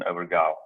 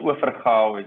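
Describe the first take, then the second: First: The name is said with an American pronunciation. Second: The name is said with its local pronunciation. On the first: This is how people in the US say it. "when I'm in the U S, ... they would use um, the pronunciation" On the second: This is the correct pronunciation. "is the pronunciation. That's the the um, the correct"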